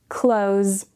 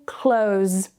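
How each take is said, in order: Both takes have the same delivery.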